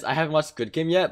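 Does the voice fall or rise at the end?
falls. The voice falls at the end, a statement.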